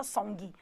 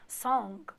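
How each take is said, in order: First: Song with a hard sung G at the end; overpronounced G. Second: Song with a barely heard G at the end; subtle G. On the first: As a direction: stress the final G in song. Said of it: "tem o G, mas não fala song". (song com G bem pronunciado) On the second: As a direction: let the G in song fade out. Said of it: "um G bem sutil". (song com G bem sutil) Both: Shown as a demonstration.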